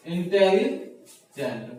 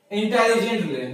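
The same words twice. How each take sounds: First: intelligent stretched out slowly, syllable by syllable; slow intelligent right down for the students; intelligent broken into its four parts, slowly. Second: Said in the usual way. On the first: Shown as a demonstration. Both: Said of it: "इसको बोलने के लिए क्या करते हैं".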